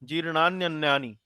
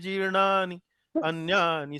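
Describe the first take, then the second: First: The first word's ending runs into the second. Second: Both words are said in full, kept separate. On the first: "जब संधि हो जाता है तो जीर्णान्य" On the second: "जीर्णानी और अन्यानी करके भी इसका उच्चारण कर सकते हैं"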